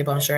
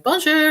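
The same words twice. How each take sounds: First: Said in the usual way. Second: Much higher, chirpy imitation greeting; eager attempted bonjour. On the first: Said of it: "and they'd say bonjour". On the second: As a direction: mimic a keen beginner trying French. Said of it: "and I'd be like".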